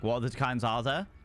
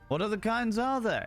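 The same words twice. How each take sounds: First: It is said in a sarcastic, mocking tone. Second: It is said in a light, jovial tone. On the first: The question mocks the listener. "that could also come across as super sarcastic" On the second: The question is a friendly joke. "In, like, a jovial manner"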